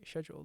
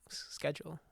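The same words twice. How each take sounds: First: It is said in a British pronunciation. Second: It is said in a non-British pronunciation. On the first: "Brits, right? They say schedule" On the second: "I'm schedule"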